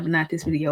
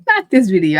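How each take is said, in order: First: Said in the usual way. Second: Not this video, said louder and firmly; louder repeat. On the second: Real, not acted. Teacher insisting to viewers, louder. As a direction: repeat it louder through the laugh.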